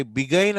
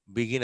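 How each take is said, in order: First: బిగైన్ with long "gain" ending; wrong spelling pronunciation. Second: బిగిన్ said bi-gin, short vowels; correct pronunciation. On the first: Teacher asking why not read it this way, wrong pronunciation. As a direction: misread begin as బిగైన్, bi-GAIN. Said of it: "అనం". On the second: Teacher settling how the word is said, standard pronunciation. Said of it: "బిగిన్ అనే అంటాం". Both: Shown as a demonstration.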